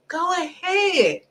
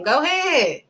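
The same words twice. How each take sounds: First: Higher, slow, softer taunting go ahead; mocking go ahead. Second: Said in the usual way. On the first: Preacher voicing God taunting the disobedient people, slow and high. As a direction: drag it out like a dare. God's voice, drawn-out second take.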